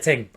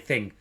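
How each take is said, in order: First: The word begins with a hard t sound. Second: The word begins with a soft th sound. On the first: The speaker calls it wrong. "I just said ting. That's not me" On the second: The speaker calls it right. "I pronounce my th's"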